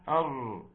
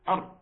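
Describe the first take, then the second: First: The r sound is held for a short time. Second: The r sound is cut off abruptly. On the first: The speaker calls it right. "هات لي التوسط بتاعها، أر، لها زمن" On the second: The speaker calls it wrong. "لا ده شدة"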